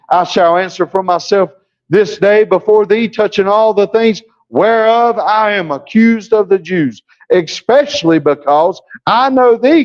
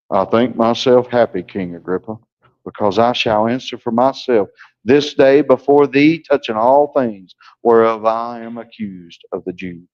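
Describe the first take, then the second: First: Eager, animated reading; Paul answering the king, eager and lively; lively preacher's Paul. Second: Mock a boring preacher, lifeless and low; dull droning preacher. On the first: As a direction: deliver it like Paul meant it. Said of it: "No, that ain't how Paul did it". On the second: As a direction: stiff preacher who just stands and drones. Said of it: "preachers that just stand like this and they talk like this". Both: Shown as a demonstration.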